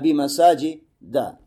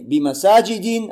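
First: The word ends with the sound 'a'. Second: The word ends with the sound 'in'. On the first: The speaker calls it right. "а бимасаджи да" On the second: The speaker calls it wrong. "не бимасаджи дин"

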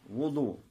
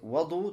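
First: The first vowel is a 'u' sound. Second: The first vowel is an 'a' sound. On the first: It means the act of performing the ablution. "если с даммой" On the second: It means the water used for the ablution. "то тогда с фатхой"

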